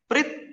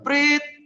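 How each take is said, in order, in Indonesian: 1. Ketiga bunyi itu masing-masing pendek. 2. Ketiga bunyi itu masing-masing panjang. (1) "itu kan kalau pendek" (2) "isyaratnya panjang, panjang, panjang"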